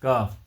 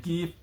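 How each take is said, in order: First: काफ with a long open aa; correct pronunciation. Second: कीफ with a long ee, shown as a mistake; wrong pronunciation. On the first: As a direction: say काफ clearly, the right way. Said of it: "इसका तलफ़ुज़ भी वही है". (काफ, सही तलफ़ुज़) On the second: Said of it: "जो कि गलत है". (कीफ, गलत तलफ़ुज़) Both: Shown as a demonstration.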